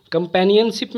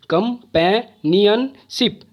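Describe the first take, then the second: First: Said in the usual way. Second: "companionship" slowly as कम, पै, नियन, शिप; four separated beats on "companionship"; syllable by syllable. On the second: Shown as a demonstration. ("Companionship" को चार हिस्सों में रुक-रुक कर) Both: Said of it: "चार syllable है".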